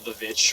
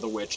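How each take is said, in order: First: The word begins with a V sound. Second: The word begins with a W sound. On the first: "I always want to call it the Vitch" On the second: "depending on how you want to pronounce it"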